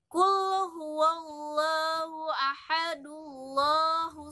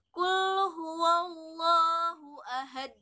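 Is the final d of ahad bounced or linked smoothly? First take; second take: linked; bounced. First: The final d links smoothly into the next word. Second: The final d is stopped with a bouncing echo. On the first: The verse is joined to the next one. "bisa kita sambung seperti itu. Maka tidak ada hukum qalqalahnya" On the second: The recitation stops at the end of the verse. "ketika kita menyetopnya di ayat satu saja ... itu ada qalqalahnya"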